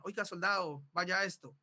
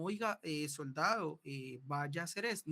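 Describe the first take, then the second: First: Firm, sure command voice; firm order. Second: Hesitant order. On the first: Teacher demonstrating a firm soldier's command. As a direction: give the order with full authority. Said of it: "una voz segura, firme, de dar una orden". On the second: Teacher showing the wrong, hesitant way to command. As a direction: give the order unsure and wavering. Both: Shown as a demonstration.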